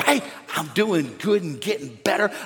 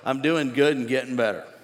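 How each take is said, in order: First: It sounds lively and enthusiastic. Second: It sounds flat and unconvincing.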